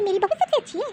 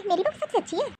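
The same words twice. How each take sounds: First: Said in the usual way. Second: Higher, softer sing-song mimicry of the proud mother-in-law; mocking mother-in-law. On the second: Sister-in-law mocks how mother-in-law praises her daughter-in-law, in a high, soft, sneering mimic. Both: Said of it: "बहुत बहू बहू करती है ना कि".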